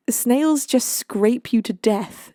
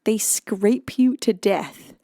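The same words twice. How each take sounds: First: "Snails just scrape you to death" read slowly, weight on "Snails"; slow ominous reading with "Snails" leaned on; slow dramatic read. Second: "They scrape you to death" slow, "you" hit and falling; slow horrified echo, weight on "you"; stress on YOU. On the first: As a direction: linger on "Snails", drag out the rest. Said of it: "says Bretling". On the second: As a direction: press on "you", let it drop. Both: Shown as a demonstration.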